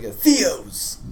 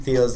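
First: A touch of venom on the name, pitched slightly up; malicious. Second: Said in the usual way. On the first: Acted. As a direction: spit the name with mild malice. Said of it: "He says it in f-, with such malice". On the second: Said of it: "with such malice".

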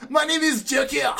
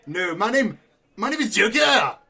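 First: High, theatrical Joker voice; hammed-up Joker announcing himself; mock villain Joker. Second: Put-on Joker voice slipping into a French accent; comically French-tinged delivery; French-sounding Joker. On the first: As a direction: reassert the name in a high villain pitch. Joker reasserts name after French remark. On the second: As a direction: turn the villain a bit French, rising on the name. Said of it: "You're turning French".

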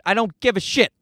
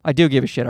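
First: Said in the usual way. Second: "do" leaned on, voice dropped lower; low sheepish correction hitting "do"; stress on do. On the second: Acted. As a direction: correct yourself by landing on "do".

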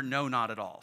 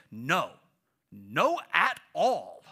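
First: Said in the usual way. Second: Put-on emphatic little kid refusal, drawn out; loud, slow NO AT ALL, like a stubborn toddler; Aiden. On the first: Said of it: "Aiden couldn't quite remember". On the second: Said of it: "when Aiden wanted to use that phrase, he would say".

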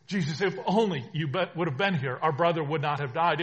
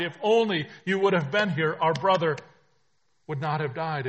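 First: Loud anguished plea, pitch pushed up; louder, anguished first take of the plea; pleading sisters. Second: Louder, higher, desperate repeat; the second take climbs higher and louder than the first; pleading sisters. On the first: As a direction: cry it out as the grieving sisters. Grieving sisters reproach Jesus. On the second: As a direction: push the plea to its peak. Sisters repeat plea, rising. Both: Acted.

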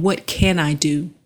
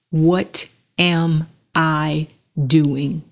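First: Said in the usual way. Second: What am I doing, each word drawn out slowly; slow emphatic question. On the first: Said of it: "Instead of saying". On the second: Shown as a demonstration. Speaker giving viewers the better question, slow and weighty. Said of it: "ask yourself".

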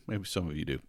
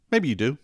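First: Softer, lower, falling concession; quiet aside. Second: Playful, higher, louder rising question; teasing. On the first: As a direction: drop it to a soft aside. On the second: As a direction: tease the listeners, rising up. Teasing aside to listeners. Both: Real, not acted.

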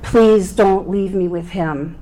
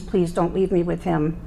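First: Slower, louder pleading. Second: Retold pleading. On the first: Retold or imitated. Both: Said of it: "I had begged them".

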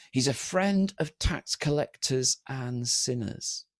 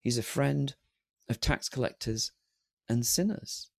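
First: Drawn-out accusation, softer at the end; doing him down. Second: Soft, broken into pauses; savoured accolade. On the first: Acted. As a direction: imitate a slow, disparaging verdict. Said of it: "trying to do Jesus down". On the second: Shown as a demonstration. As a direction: quietly dwell on each phrase as an honour. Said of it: "What an accolade".

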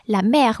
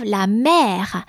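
First: "la mère" repeated once in French, open è. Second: "la mère" said slowly in French, open è in "mère"; French example word. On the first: Scene: teacher repeating the word for students to copy. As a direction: echo "la mère" at normal speed. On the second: Scene: teacher giving a French example word, said slowly. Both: Shown as a demonstration. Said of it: "So for accent grave".

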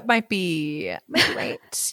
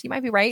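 First: Whispered. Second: Said in the usual way. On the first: Real, not acted. Hushed teasing reply.

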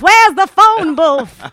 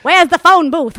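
First: Slow, loud, high film-star drawl; Katharine Hepburn voice. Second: Katharine Hepburn impression. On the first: Pretend. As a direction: stretch it out like an old movie star. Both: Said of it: "do a good Katharine Hepburn".

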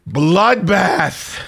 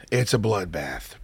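First: BLOODBATH drawn out, higher and punched; "bloodbath" stretched out after a pause; dramatic emphasis. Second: Low, soft and slow repeat; slow, hushed, low-pitched confirmation; grim understatement. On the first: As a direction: proclaim "bloodbath" as a big, slow verdict. Dramatic first take, then repeated lower. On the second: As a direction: drop the voice to a quiet, grave verdict. Low repeat of dramatic line. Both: Real, not acted.

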